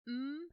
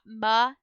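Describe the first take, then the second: First: The m sound is held with no vowel. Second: The m sound is followed by a vowel. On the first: The speaker calls it right. "but mm" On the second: The speaker calls it wrong. "not ma"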